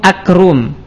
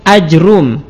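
First: Short first a, then a k sound replaces j. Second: Short first a, bare j, then a single r. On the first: "jimnya kita ganti dengan huruf kaf" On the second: "memfathah hamzah tapi tidak dimatkan, kemudian mensukun jim dan mendomah ra tanpa ditasydidkan"

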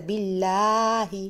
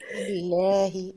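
First: The vowel is said with a very wide jaw opening. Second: The vowel is said with a moderate jaw opening. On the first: The speaker calls it wrong. "شوفي انت فاتحه متر ونص كده بين الفكين" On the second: The speaker calls it right. "بالله وليس"

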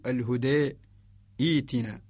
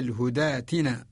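First: There is a stop between the two words. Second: The two words run together without a stop. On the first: "إذا وقفنا نقول لورش" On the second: "أما إذا قرأنا بالصلة"

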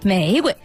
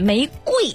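First: The second syllable is light and unstressed. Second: The second syllable has a full falling tone. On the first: "标准读音玫瑰，第二声是清音啊" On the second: "这个要念玫瑰花。因为它贵呀"

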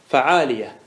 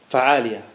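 No difference in how they are said.

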